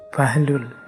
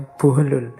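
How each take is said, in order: First: The first vowel of the name is 'a'. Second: The first vowel of the name is 'u'. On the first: "ada yang membacanya Bahlul" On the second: "ada yang membacanya Buhlul"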